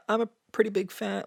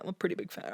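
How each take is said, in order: First: Said in the usual way. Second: Much softer "pretty big fan", backing off; downplay it under your breath; hedging, taking it back. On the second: Shown as a demonstration.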